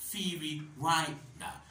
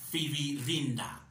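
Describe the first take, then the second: First: The second 'ri' is said like 'rye'. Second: The second 'ri' is said like 'ree'. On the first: The speaker calls it right. "It is Firirinda. ... the second R-I is pronounced as Rai" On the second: The speaker calls it wrong. "No, it is not Firirinda"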